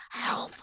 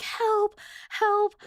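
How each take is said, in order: First: Soft, voiceless mock cry of "help"; yell barely coming out. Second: High-pitched mock yell for help; retold yell. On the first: Sleeper jolting awake calls a sibling, yell barely coming out. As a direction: imitate a strangled yell with hardly any sound. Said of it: "nothing comes out". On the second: Sleeper retelling a try at waking up, mock yell. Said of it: "I'm, like, yelling".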